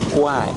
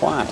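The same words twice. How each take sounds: First: It is said with a Thai-style pronunciation. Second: It is said with an English-style pronunciation. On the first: This is how Thai speakers say it. "actually the Thais pronounce it" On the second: This is how English speakers say it. "What we say"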